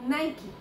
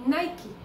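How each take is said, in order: The two takes are said the same way.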